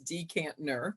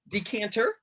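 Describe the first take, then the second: First: An extra n sound comes before the final syllable. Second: No n sound comes before the final syllable. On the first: The speaker calls it right. "it's like there is a second N there" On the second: The speaker calls it wrong. "Decanter will drive me crazy"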